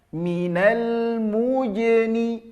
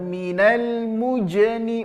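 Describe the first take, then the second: First: The j sounds soft. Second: The j sounds hard. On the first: The speaker calls it right. "lembut bunyinya ya" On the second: The speaker calls it wrong.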